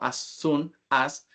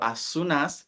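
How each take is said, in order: First: The words are said separately with breaks. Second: The three words run together smoothly. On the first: The speaker calls it wrong. "y no as soon as" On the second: The speaker calls it right. "juntamos todo el sonido"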